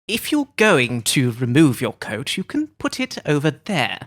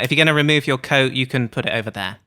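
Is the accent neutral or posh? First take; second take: posh; neutral. First: It is said in a posh, fancy accent. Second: It is said in a neutral accent.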